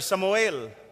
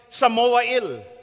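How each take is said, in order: First: The name is said quickly, syllables run together. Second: The name is said slowly, syllable by syllable.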